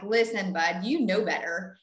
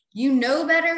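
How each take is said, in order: First: Said in the usual way. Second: Emphatic scolding. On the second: Retold or imitated. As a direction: raise it, higher and louder. Scolding repeat, louder.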